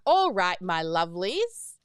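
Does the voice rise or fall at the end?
rise. The voice rises at the end.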